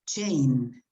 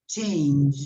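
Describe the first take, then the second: First: The word ends without its final consonant sound. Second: The word ends with its final consonant sound. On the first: The speaker calls it wrong. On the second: The speaker calls it right.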